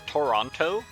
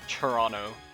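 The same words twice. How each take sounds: First: The T sounds are pronounced clearly. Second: The T sounds are softened toward ch or dropped. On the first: It is how newcomers say the city's name. "you may be inclined to call it Toronto" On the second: It is how locals say the city's name. "we kind of turn that T into like a ch sound"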